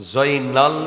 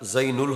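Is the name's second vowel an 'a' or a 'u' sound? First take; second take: a; u. First: The name's second vowel is an 'a' sound. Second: The name's second vowel is a 'u' sound. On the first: The speaker calls it wrong. "জয়নাল এটা ভুল" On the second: The speaker calls it right. "এটা জৈনুল হবে"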